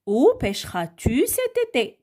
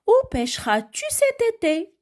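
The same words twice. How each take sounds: First: Calm repetition of the question; plainer repeat. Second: High, exaggerated teacher question; lively question tune. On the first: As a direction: question repeated nearer normal pitch. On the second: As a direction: question read much higher, with a strong lift on où. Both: Shown as a demonstration. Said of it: "Regardez avec moi cette, euh, phrase".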